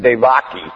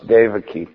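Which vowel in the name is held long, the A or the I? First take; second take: A; I. First: The A vowel is held long. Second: The final I vowel is held long. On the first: The speaker calls it wrong. "But everybody says Devaki" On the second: The speaker calls it right. "No, it's Devaki"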